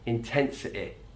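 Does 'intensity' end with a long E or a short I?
short I. The final vowel is a short I. "In his accent, it's a short I"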